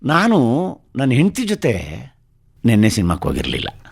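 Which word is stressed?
ಹೆಂಡತಿ. The word for wife is stressed. The cinema trip happened, but not with the wife. "ನೆನ್ನೆ ಸಿನಿಮಾಕ್ಕೆ ಹೋಗಿದ್ದೆ, ನನ್ನ ಹೆಂಡತಿ ಜೊತೆ ಹೋಗಿರಲಿಲ್ಲ"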